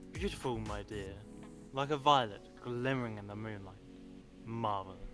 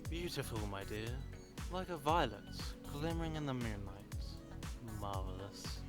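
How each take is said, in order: First: It is said in a plain voice. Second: It is said softly and gently.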